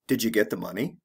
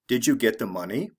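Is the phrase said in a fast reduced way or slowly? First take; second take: fast; slow. First: The words are said quickly and run together. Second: The words are said slowly and separately. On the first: "The fast way" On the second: "The slow way"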